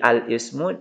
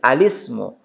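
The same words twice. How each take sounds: First: A glottal stop separates al and ismu. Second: The vowel joins the l; no glottal stop. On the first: "Jadi al-ismu" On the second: "menjadi alismu"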